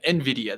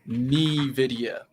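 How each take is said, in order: First: The opening N blends into the word. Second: The opening N stands out like a letter. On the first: The speaker calls it right. "That's how it's pronounced" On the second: The speaker calls it wrong. "they pronounce the N"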